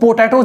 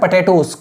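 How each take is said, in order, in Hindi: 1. पहला अक्षर 'poh' जैसा सुनाई देता है। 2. पहला अक्षर 'puh' जैसा सुनाई देता है। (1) "इसको पोटैटोस नहीं बोलते" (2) "इसको पढ़ते हैं पटेटोस"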